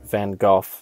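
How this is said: The name is said in a non-American way. It follows the pronunciation used in the movie. "how the movie pronounces it"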